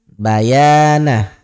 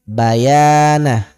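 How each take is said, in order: The two takes are said the same way.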